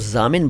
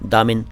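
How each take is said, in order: First: The word begins with a z sound. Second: The word begins with a d sound. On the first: The listener understands the intended word. The speaker calls it right. "इसको ज़ामिन बोलना ही ठीक है" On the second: The listener would understand a different word. The speaker calls it wrong. "उनको चाहिए कि इस शब्द को दामिन बोलें"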